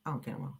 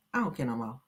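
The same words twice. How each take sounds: First: Much softer, trailing-off mutter; muttered repeat. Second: Said in the usual way. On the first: Real, not acted. Shrugging the topic off to herself, much softer. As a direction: say it under your breath.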